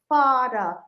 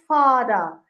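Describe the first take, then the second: No difference in how they are said.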